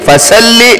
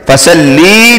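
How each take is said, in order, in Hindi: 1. दोहरे लाम के बाद का स्वर छोटा रखा जाता है। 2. दोहरे लाम के बाद का स्वर खींचा जाता है। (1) "लाम के आगे या लगाकर खींचा नहीं जाता" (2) "बाद लोग ऐसे पढ़ते हैं"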